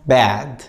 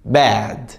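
Both takes have the same delivery.

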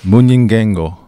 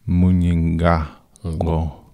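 First: The vowel in 'nga' sounds like 'eh'. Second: The vowel in 'nga' sounds like 'ah'. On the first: The speaker calls it wrong. "So don't try to make them Nge" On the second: The speaker calls it right. "the A's are A"

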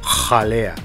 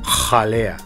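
First: The j sound is harsh and intense. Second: The same.

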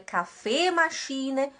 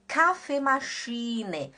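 First: The stress is not on the first syllable. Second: The stress is on the first syllable. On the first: The speaker calls it wrong. "não é café machine" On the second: The speaker calls it right. "é K"

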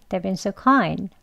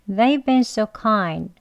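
First: The sentence is said at a fast pace. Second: The sentence is said at a slow pace.

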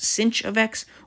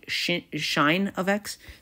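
First: The name begins with an 's' sound. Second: The name begins with an 'sh' sound. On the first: "pronounced sinh of x" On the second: "or some people say shine of x"

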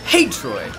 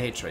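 First: The greeting is said loudly with lively energy. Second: The greeting is said plainly, without much energy. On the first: The speaker calls it right. "That is the correct way to say hey Troy" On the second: The speaker calls it wrong. "you can't just say hey Troy"

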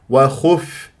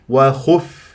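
Both takes have the same delivery.

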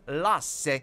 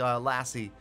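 First: The name is said with a Finnish pronunciation. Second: The name is said with an English pronunciation.

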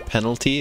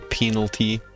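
First: The first vowel is a short 'eh' sound. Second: The first vowel is a long 'ee' sound. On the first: The speaker calls it right. "it's pronounced like that" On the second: The speaker calls it wrong. "we don't say penalty"

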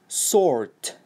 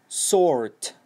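Both takes have the same delivery.

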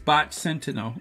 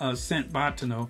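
First: The opening sounds of the two words are normal. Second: The opening sounds of the two words are swapped. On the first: The speaker calls it right. "but it's Bot Sentinel" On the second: The speaker calls it wrong. "sometimes I know I say Sent Botinel"

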